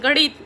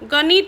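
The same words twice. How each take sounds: First: The n sound is retroflex. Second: The n sound is dental. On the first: The speaker calls it right. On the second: The speaker calls it wrong.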